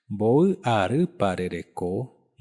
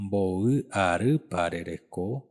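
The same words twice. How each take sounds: The two takes are said the same way.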